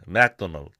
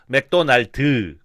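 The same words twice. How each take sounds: First: The end of the word is not stressed. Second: The end of the word is said strongly.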